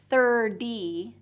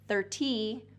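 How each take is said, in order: First: The middle consonant is a quick D-like tap. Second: The middle consonant is a clear T sound. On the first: "the T is going to become a D" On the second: "D instead of"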